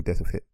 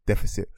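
First: 'deficit' rushed and swallowed, like 'def-it'; mumbled deficit. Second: 'deficit' said clearly as DEF-uh-sit; clear deficit. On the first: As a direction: slur the word 'deficit' quickly. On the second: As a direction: carefully enunciate 'deficit'. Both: Shown as a demonstration.

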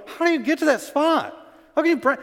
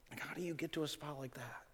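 First: High, loud disbelieving cry; incredulous outcry. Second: Very soft, almost breathed question; hushed question. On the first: Retold or imitated. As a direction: shout the question in disbelief as Paul. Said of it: "And Paul's going". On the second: Real, not acted. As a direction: drop right down and ask it softly. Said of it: "same question repeated hushed".

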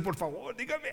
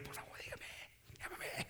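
First: Softer imitation rising high into laughter; mock pleading. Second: Very soft, voiceless imitation of begging; barely audible playful pleading; mock faint plea. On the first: Preacher mimicking what one would say, mock pleading. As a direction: playfully mimic someone begging to be told. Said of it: "A uno van a decir". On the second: Preacher teasing with someone's plea to be called, faintly.

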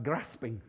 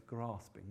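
First: "grasping" in a Yorkshire accent, short a as in cat; lower, softer Yorkshire "grasping". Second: "Grasping" with a long ah, as GRAHS-ping; low, very soft "Grasping", drawn-out ah in the first syllable; long-a pronunciation. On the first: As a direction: say "grasping" the good Yorkshire way, with a short flat northern a. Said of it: "with a good Yorkshire accent". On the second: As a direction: say "Grasping" the southern English way, with a broad a as in father. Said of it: "how you say it". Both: Shown as a demonstration.

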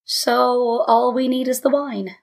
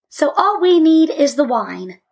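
First: Slow, resigned echo; sigh-weary father repeating it slowly. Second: Put-on higher, louder triumphant child; triumphant conclusion, pitched up. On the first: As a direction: draw it out with reluctance. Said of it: "He sighed and sat back". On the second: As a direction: crow it triumphantly. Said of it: "said Malka triumphantly". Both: A narrator's reading.

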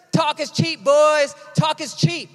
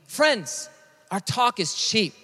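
First: Raised-pitch coach imitation; high, forceful coach's slogan; football coach. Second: Slow, subdued admission; quiet, measured confession; sober appeal. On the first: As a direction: call it out like a coach to the team. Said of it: "My sixth grade football coach always said". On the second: Real, not acted. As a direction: bring it down and say it earnestly to friends. Turns coach's slogan on the congregation.

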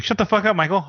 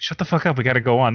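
First: Cheerful and higher, relishing it; jovial. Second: Said in the usual way. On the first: Retold or imitated. Fan gleefully telling Michael to shut up, jovial. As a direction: say it like you enjoy every word. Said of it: "this sounds super jovial when he says it". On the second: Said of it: "Brian's just like".

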